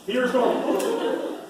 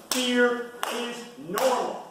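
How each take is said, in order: First: Slow, high, louder stress on "Fear"; emphasis on fear. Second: Slow, high, drawn-out stress on "normal"; emphasis on normal. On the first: Repeating the point to his audience, punching "Fear" slowly. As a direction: hit "Fear" high and hold it, "is normal" trailing. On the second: Pressing a key point on his audience, stressing "normal" slowly. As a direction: stretch "fear is normal" slowly and lean hard on "normal". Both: Shown as a demonstration. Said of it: "To emphasize some points".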